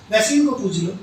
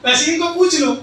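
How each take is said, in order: First: Said in the usual way. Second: Higher, louder insistent repeat. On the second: Acted. Husband insisting in front of the guest, louder and higher. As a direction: push the same line much harder.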